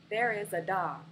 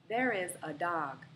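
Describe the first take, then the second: No difference in how they are said.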